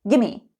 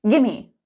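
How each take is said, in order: No difference in how they are said.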